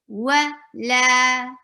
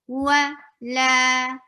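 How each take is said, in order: Both takes have the same delivery.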